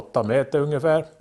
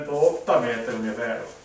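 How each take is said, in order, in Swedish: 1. Rösten låter nära och tydlig. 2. Rösten låter avlägsen och rymlig. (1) "Nu är mikrofonboja igång och då låter det på det här viset" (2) "sätter vi igång mikrofonen och gör samma resa"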